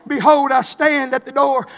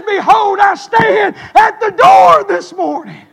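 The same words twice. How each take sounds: First: Said in the usual way. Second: Loud, high, slow call of the verse; shouted preaching. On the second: Acted. Preacher to congregation, booming the verse. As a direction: proclaim it like thunder. Shouted scripture then quiet repeat.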